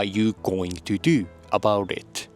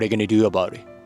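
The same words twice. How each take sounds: First: Each word is said fully and separately. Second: The words are reduced and run together.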